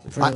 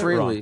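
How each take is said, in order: First: The first syllable sounds like 'fray'. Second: The first syllable sounds like 'free'. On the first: The speaker calls it right. "but it's Freiley" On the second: The speaker calls it wrong. "A lot of people pronounce it freely"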